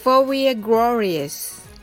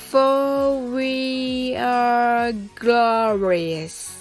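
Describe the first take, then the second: First: The phrase is spoken at a fast pace. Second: The phrase is spoken at a slow pace. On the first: "次に早く言ってみましょう。" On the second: "はじめはゆっくりです。"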